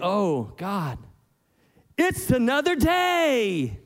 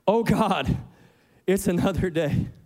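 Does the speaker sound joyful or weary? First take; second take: joyful; weary. First: It sounds joyful, like thanks for a new day. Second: It sounds weary, like a groan about the day.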